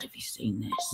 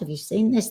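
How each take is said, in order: First: It is said in a lowered, quieter voice. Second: It is said at a normal speaking volume.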